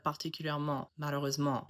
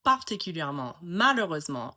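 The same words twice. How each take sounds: First: Particulièrement, malheureusement with evenly weighted syllables; even French stress. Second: Particulièrement, malheureusement with one syllable punched in each; English-style word stress. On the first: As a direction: keep every syllable of malheureusement equal, no punch. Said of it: "instead of". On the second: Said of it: "with three-syllable words". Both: Shown as a demonstration.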